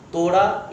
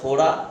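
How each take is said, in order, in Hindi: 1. पहली t ध्वनि में साँस का झोंका नहीं है। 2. पहली t ध्वनि में साँस का झोंका है।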